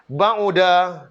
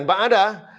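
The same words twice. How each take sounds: First: Ba'uda with u on the middle syllable; stressed Ba'uda with a falling tune; correct form. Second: Ba'ada with a in the middle, wrong; ba'ada as the error; wrong form. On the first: Teacher models the correct Ba'uda. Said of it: "bukan ba'ada". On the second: Teacher warns off ba'ada. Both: Shown as a demonstration.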